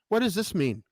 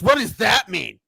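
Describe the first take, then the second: First: It is asked as a plain, curious question. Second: It is asked in a confrontational, challenging tone.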